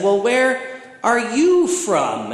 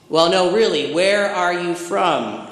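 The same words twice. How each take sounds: First: Retold retort, slow and high on YOU; pointed comeback. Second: Retold insistent questioning, WHERE leaned on; pressing question. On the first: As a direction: stress on YOU, pitched high and drawn out. Speaker turns the question back. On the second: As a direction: stress on WHERE, higher and drawn out. Neighbor presses his question, retold.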